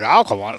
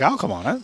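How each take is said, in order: First: It sounds negative and unenthusiastic. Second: It sounds eager and excited.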